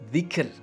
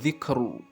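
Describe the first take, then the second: First: The word ends on the consonant r. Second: The word ends with a short u vowel. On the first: The speaker calls it right. "ketika dibaca waqaf, maka membacanya adalah dzikr" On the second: The speaker calls it wrong. "bukan dzikru"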